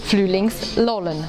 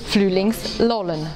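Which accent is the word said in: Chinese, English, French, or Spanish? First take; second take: Chinese; Chinese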